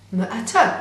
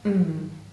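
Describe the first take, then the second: First: The sounds are said loosely, with extra vowel sounds. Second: The sounds are said short and clipped, nothing added. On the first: The blend does not sound like a real word. The speaker calls it wrong. "you will get m-a-t, which will not sound like a word you might recognize" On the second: The blend is easy to recognize as a word. The speaker calls it right. "But if you blend the sounds precisely"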